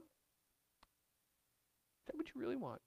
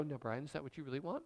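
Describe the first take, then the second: First: Very soft, slow, drawn-out question; slow gentle God voice. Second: Fast, much softer questioning reply; gentle God voice. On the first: God asks Brian again, slow and hushed. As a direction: stretch each word, hushed and searching. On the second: God answers Brian's angry prayer, soft and quick. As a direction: ask it quickly and softly, like God probing. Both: Acted. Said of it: "wait for his answer".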